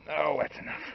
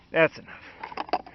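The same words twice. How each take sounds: First: Said in the usual way. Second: Slow breathy whisper. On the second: Shown as a demonstration. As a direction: whisper it slowly to yourself. Repeats phrase while pouring.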